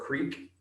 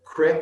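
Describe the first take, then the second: First: The vowel is long, like in 'seek'. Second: The vowel is short, like in 'brick'. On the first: It is the ordinary pronunciation. "instead of creek" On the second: It is an old-fashioned Kentucky pronunciation. "would say crick"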